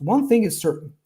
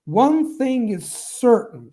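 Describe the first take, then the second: First: High on One, falling to a stop; falling, full stop. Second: Slow, starting high on One and falling; high then falling. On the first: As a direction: say it like a finished sentence. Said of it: "dot here". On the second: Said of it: "falling down here again". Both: Shown as a demonstration.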